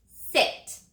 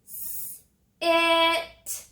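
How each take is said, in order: First: Said in the usual way. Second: "S-" then "it" said as two separate segmented sounds; stretched into sounds. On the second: Shown as a demonstration. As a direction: pull the word apart into its sounds, "S-" and "it". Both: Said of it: "Finger stretch it with me".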